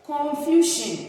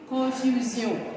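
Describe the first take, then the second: First: It is pronounced with English sounds. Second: It is pronounced with French sounds. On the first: "confusion in English" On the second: "the French version will be confusion"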